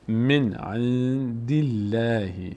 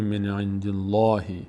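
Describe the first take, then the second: First: The L in Allah sounds thin and light. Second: The L in Allah sounds full and heavy. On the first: The speaker calls it right. "اینجا باریک خونده میشه" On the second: The speaker calls it wrong. "نمیگه من عند الله، من عند الله اشتباهه"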